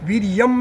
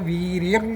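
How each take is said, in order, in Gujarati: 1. અંતિમ અનુનાસિક 'm' જેવો સંભળાય છે. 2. અંતિમ અનુનાસિક 'ng' જેવો સંભળાય છે. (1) "વીર્યમ નહીં બોલવાનું આપણે અનુસ્વાર એટલે મકાર જ બોલીએ છીએ પણ એ નહીં બોલવાનું" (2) "સહ વીર્યમ એમ બોલવાનું"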